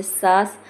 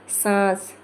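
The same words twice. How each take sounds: First: सास with a plain आ, no nasal sound; oral vowel. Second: सांस with आ sent through the nose; nasalized vowel. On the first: Teacher contrasting nasal sounds, सास without nasality. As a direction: keep सास free of nasality. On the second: Teacher showing air through nose, सांस nasalized. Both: Shown as a demonstration. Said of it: "नाक से भी निकले तो अनुनासिक".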